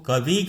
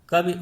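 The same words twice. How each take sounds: First: The final i vowel is long. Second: The final i vowel is short. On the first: The speaker calls it wrong. "वह में दीर्घ ध्वनि सुनाई देती है ई" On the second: The speaker calls it right. "वो कवि उच्चारण ना करके"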